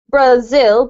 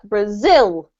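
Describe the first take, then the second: First: The stress is on the first syllable. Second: The stress is on the second syllable. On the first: The speaker calls it wrong. "you don't say Brazil" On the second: The speaker calls it right. "put the emphasis on the second syllable"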